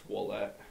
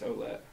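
First: The name begins with a 'w' sound. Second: The name begins with an 'oh' sound. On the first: This is the Canadian French way of saying the name. "the O-U-E makes the wall sound, apparently, in French" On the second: This is the American way of saying the name. "the American way, starts with an O"

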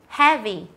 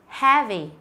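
The two takes are said the same way.

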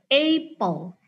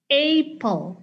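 No difference in how they are said.

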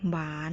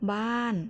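First: The syllable is said with a rising tone. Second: The syllable is said with a falling tone.

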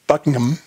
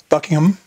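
First: It is said the British way. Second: It is said the British way.

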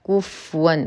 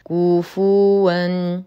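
First: The f sound carries no vowel after it. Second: The f sound is followed by a full u vowel. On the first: The speaker calls it wrong. "من الأخطاء الشائعة إسكان الفاء، فكثير ما يقرأ كفوا وهذا خطأ" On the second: The speaker calls it right. "الصواب كفوا"

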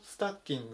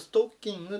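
First: It is said with English-like sounds. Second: It is said with Japanese loanword sounds. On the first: "英語だとスタッキングっていうふうに発音します" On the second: "日本語だとストッキングっていうふうに言う"

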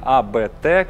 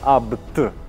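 First: The name is said as separate letters. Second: The name is said as one short word. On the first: The speaker calls it wrong. "не АБТ, как многие говорят" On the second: The speaker calls it right. "именно Абт"

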